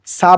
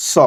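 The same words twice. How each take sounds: First: "সা" with a light s and open aa; wrong thin "সা". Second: "স" as a heavy saw, not saa; rounded "স". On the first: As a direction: say a plain, thin "সা". (পাতলা আ-ধ্বনি দিয়ে "সা") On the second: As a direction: round the vowel of "স" into aw. (অ ধ্বনি দিয়ে মোটা "স") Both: Shown as a demonstration. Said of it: "সা বললে ভুল হবে".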